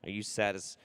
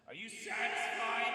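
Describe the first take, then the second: First: Said in the usual way. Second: High, distant echoing yell; yelled over cliff. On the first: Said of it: "I will satisfy your request". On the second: Pretend. Host satisfying a viewer's request, high yell over the cliff. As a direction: call it out far into a canyon. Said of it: "yelled over the cliff".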